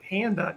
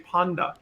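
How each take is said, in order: First: The vowel has an American sound. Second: The vowel has a European sound. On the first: "instead of saying panda" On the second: "the European kind of pronunciation of a"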